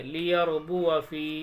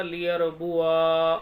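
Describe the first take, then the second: First: "लियरबुआ फ़ी" with a short आ before a long फ़ी; unstretched वा. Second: "लियरबुआ" slow, with the final आ held long; stretched वा. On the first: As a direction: pass quickly over the आ into फ़ी in "लियरबुआ फ़ी". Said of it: "इस तरीके से पढ़ेंगे". ("लियरबुआ फ़ी" में आ छोटा, बिना खींचे) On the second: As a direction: drag out the ending of "लियरबुआ". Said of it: "पढ़ना क्या चाहिए था". ("लियरबुआ" का आख़िरी आ लंबा खींचकर) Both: Shown as a demonstration.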